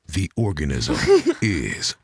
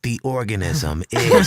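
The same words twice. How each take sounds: First: It is said in a low, epic narrator voice. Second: It is said in a high-pitched, epic voice. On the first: "doing it in this kind of like epic" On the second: "my voice is actually kind of high"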